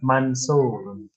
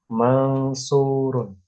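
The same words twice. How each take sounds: First: The n is pronounced plainly before the s. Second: The n is nasalized and hidden before the s. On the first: It is ordinary Arabic speech. The speaker calls it right. "Biasa aja" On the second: It follows Quranic recitation rules. The speaker calls it wrong. "Nggak harus dibaca mansurun"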